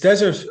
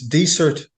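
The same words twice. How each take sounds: First: The word is given its English pronunciation. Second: The word is given its Irish pronunciation. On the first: "obviously in English" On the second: "in Irish"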